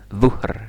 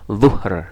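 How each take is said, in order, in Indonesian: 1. Kata ini diawali dengan bunyi dh tebal. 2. Kata ini diawali dengan bunyi dh tebal.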